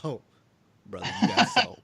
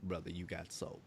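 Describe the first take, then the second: First: Loud retold crowd-style exclamation. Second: Low, soft demonstration; undertone. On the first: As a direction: call it out loud, as if back at the show. Quoting himself at the concert. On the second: Shown as a demonstration. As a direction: drop it down low and quiet under the talk. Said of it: "gotta say it in an undercut".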